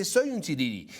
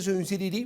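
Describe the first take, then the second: First: SOY stressed, falling close on "sirirí"; emphatic affirmation. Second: SIRIRÍ lifted at the end as a question; rhetorical question. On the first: Commentator answers own question to the audience, emphatic affirmation. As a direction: own it firmly, landing "sirirí" as a statement. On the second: Commentator puts a question to the audience, rhetorical question. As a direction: ask it, voice rising on "sirirí". Asks it, then answers it. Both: Real, not acted.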